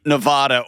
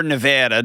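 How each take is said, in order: First: "Nevada" said ne-VAH-da; broad "ah" in the middle of "Nevada"; stressed middle of "Nevada" rhymes with spa. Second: "Nevada" said ne-VAD-a; flat "a" as in "cat" in "Nevada"; stressed middle of "Nevada" rhymes with dad; Nevada with short a. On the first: Host contrasts two pronunciations of Nevada. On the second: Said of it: "depending on who you're talking to". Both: Shown as a demonstration.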